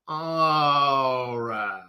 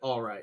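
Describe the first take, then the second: First: It is said with added drama. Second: It is said plainly and casually.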